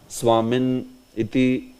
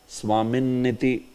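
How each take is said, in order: First: The word is broken with a pause before iti. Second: The word is said straight through without a break. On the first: The speaker calls it wrong. "But here you cannot pause. ... no, that will be incorrect" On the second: The speaker calls it right. "I am just saying it straight. I am not breaking these two"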